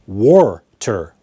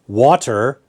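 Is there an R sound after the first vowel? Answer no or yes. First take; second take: yes; no. First: An R sound follows the first vowel. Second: The word is said without an added R sound.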